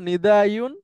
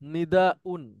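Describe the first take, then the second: First: A y sound comes before the final syllable. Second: A glottal stop comes before the final syllable. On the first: This is the original underlying form. "মূলত ছিল নিদা ইউন" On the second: This is the simplified form actually used. "Hamza দিয়ে সহজ করা হয়েছে"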